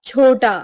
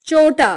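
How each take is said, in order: First: Said in the usual way. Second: Unaspirated CH in छोटा; southern pronunciation. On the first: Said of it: "Hindi उच्चारण". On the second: Shown as a demonstration. Teacher showing South Indian speech, छोटा without aspiration. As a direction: say छोटा as "chota" with च. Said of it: "दक्षिणी उच्चारण".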